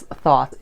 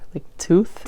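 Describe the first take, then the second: First: The name sounds like 'thought', starting with th. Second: The name rhymes with 'booth', ending in a t. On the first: This is the Western English way to say it. "In the Western world, English, we pronounce it as thought" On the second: This is the ancient Egyptian way to say it. "In Egypt, they call it tooth"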